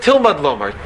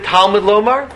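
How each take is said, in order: First: Tilmud Lomar with an "i" in the first syllable; read as Tilmud. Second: Talmud Lomar with a clear "a" in Talmud; read as Talmud. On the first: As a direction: say Tilmud, TIL as in "till". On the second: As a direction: say Talmud Lomar, TAL as in "tall". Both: Shown as a demonstration. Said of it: "rather read it Tilmud Lomar".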